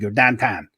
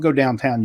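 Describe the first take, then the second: First: It is said in a Pittsburgh accent. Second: It is said in a standard American accent.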